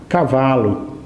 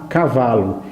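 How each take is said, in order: The two takes are said the same way.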